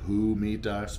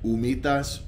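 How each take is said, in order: First: The word begins with an audible h sound. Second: The word begins with no h sound. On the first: The speaker calls it wrong. "It's spelled like humitas" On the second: The speaker calls it right. "they don't pronounce the H"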